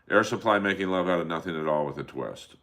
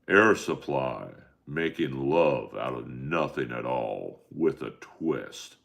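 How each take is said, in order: First: It is read very fast in a plain voice. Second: It is read in a rough, menacing villain voice. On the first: "it's so fast you don't even know what I'm saying" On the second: "if I was reading it as a bad guy, I would wake up at five forty-five"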